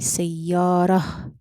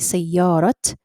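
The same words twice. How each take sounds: First: The word ends with an h sound. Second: The word ends with a t sound. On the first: The speaker calls it right. "it changes into a ha. So you say سيارة" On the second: The speaker calls it wrong. "Do you say سيارة? No"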